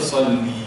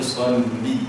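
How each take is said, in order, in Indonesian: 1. Vokal dalam salli dibaca panjang. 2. Vokal dalam salli dibaca pendek. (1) "Salli itu jangan panjang. Jangan baca salli" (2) "baca salli"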